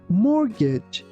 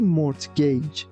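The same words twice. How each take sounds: First: No T sound is pronounced in the middle. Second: A T sound is pronounced in the middle. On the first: The speaker calls it right. "We say mortgage" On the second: The speaker calls it wrong. "we don't pronounce letter T. We don't say mortgage"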